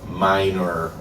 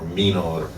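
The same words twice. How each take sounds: First: It is pronounced the English way. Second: It is pronounced the Italian way.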